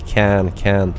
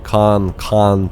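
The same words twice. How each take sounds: First: It is said in an American accent. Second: It is said in a British accent.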